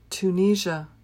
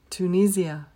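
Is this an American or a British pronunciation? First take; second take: American; British. First: It is said with an American pronunciation. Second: It is said with a British pronunciation. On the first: "the American pronunciation is Tunisia" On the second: "The British pronunciation is Tunisia"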